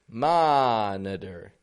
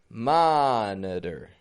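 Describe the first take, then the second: Both takes have the same delivery.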